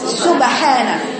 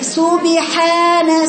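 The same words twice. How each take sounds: First: The b stays still with no vowel after it. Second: The b is followed by a slight i sound. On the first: The speaker calls it right. "أنا بقولك في الساكن رجعي قولي سبحان" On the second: The speaker calls it wrong. "تحركها إلى الكسر"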